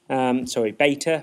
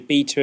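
First: The word is said with an American pronunciation. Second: The word is said with a non-American pronunciation.

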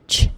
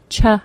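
First: The consonant sound is said with no vowel. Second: A short vowel follows the consonant sound. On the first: The speaker calls it right. "but simply ch" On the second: The speaker calls it wrong. "The sounds aren't ch"

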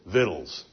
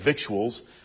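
First: The word is pronounced like vittles. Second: The word is pronounced the way it is spelled. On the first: This is the dictionary's recommended pronunciation. "it tells you to pronounce it just like grandma would" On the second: This is how people today like to say it. "as we would like to say it"

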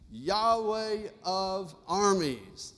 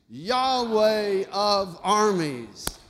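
First: It is said at normal volume. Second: It is said a little louder.

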